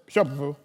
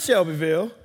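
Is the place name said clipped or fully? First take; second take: clipped; fully. First: The name is clipped and squeezed together. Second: The name is said fully, syllable by syllable. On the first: This is how local people say it. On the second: This is how outsiders say it.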